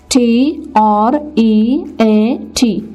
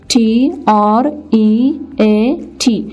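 Both takes have the same delivery.

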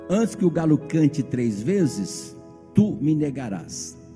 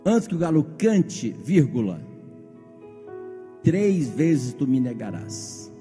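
First: The pause comes after "vezes". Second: The pause comes after "cante".

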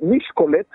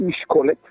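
First: The stress placement makes it sound Hungarian. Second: The stress sounds like normal Hebrew.

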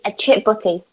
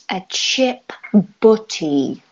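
First: The phrase is said at a normal pace. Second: The phrase is said more slowly.

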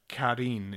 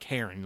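First: The name is pronounced like a Japanese name. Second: The name is pronounced like the English name Karen. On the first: The speaker calls it right. "It's like Karin. It's like a Japanese name" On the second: The speaker calls it wrong. "not like Karen"

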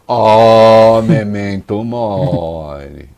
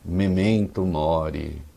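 First: It is said sternly, as a threatening warning. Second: It is said gently, as kind advice.

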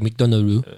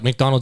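First: It is said in a Japanese accent, vowel-final. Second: It is said in a plain English accent.

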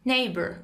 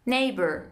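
The two takes are said the same way.

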